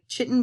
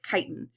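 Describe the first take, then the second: First: The word is sounded out as it looks. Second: The word is said with its accepted pronunciation. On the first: The speaker calls it wrong. "I know that looks like chitin" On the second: The speaker calls it right. "but we pronounce it chitin"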